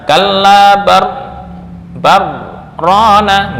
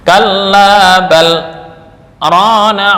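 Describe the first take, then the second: First: The l merges into the r without any stop. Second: A brief stop after bal keeps the l separate. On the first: The speaker calls it wrong. "nggak boleh dibaca" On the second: The speaker calls it right. "karena adanya saktah"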